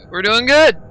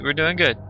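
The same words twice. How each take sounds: First: Adrenaline shakes. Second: Said in the usual way. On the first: Real, not acted. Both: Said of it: "my heart is pounding".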